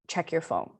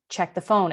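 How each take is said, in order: First: Softly voiced imitated inner message; a soft first nudge from a voice; quieter first prompting. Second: Mildly raised imitated command; a firmer, slightly louder nudge; louder repeated prompting. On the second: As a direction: repeat the voice's message more insistently. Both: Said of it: "It got louder".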